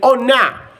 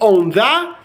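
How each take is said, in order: First: The th sound is dropped after the n. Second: The th sound is clearly pronounced. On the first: "you can say on a" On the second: "instead of saying on the"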